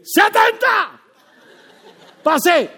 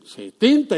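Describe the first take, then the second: First: Shouted high and loud, exultant; triumphant shout. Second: Said in the usual way. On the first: Retold or imitated. Preacher recalls getting seventy on his driving test: triumphant shout. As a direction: belt it out like you just won. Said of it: "y yo dije". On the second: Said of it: "algunos de ustedes dicen".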